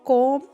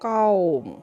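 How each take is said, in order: First: The vowel is a flat, pure o sound. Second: An open a sound glides up into w. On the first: The speaker calls it wrong. "कौम पढ़ना गलत है" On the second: The speaker calls it right. "इसको कौम"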